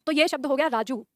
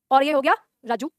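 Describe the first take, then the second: First: "राजू" said with a quick, short final u; the teacher clips the ending of "राजू" short; clipped short u. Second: "राजू" with the final ऊ stretched long; long drawn u. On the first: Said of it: "झटके से बोल रहे हैं". ("राजू" का ऊ झटके से छोटा) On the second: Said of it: "उसको ऐसे ही खींचे". ("राजू" में ऊ खींचकर लंबा) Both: Shown as a demonstration.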